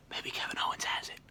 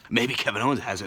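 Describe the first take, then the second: First: Quick conspiratorial whisper. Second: Said in the usual way. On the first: Real, not acted. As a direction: let us in on a secret. Conspiratorial guess.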